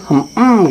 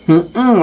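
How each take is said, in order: First: Short grudging hum; a child humming to dodge the question; reluctant child hum. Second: Put-on a child's noncommittal murmur; reluctant child hum. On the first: Retold or imitated. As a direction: hum without committing. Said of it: "gitu aja ngomongnya". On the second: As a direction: hum it unwillingly. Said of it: "ngomongnya gitu".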